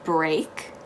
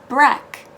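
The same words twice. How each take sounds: First: The vowel is a long 'ay' sound. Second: The vowel is a short 'eh' sound. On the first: The speaker calls it wrong. "does not become break" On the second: The speaker calls it right. "it becomes break"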